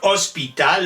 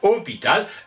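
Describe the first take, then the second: First: The S is pronounced and the O is short. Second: The S is dropped and the O is long. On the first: This is the older twelfth-century form. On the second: This is the later evolved form.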